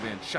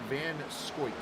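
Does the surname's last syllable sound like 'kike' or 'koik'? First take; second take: kike; koik. First: The last syllable has an 'eye' vowel sound. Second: The last syllable has an 'oy' vowel sound. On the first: The speaker calls it wrong. "I've said it wrong for two years" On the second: The speaker calls it right. "pronounced Van Scoik"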